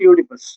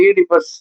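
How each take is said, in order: First: The word begins with a 'yoo' sound. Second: The word begins with an 'ee' sound. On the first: "correct pronunciation யூடிபஸ்" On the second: "சில பேர் இந்த ஈடிபஸ் அப்படிம்பாங்க"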